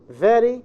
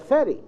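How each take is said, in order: First: The word begins with a voiced v sound. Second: The word begins with a voiceless f sound. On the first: The speaker calls it right. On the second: The speaker calls it wrong.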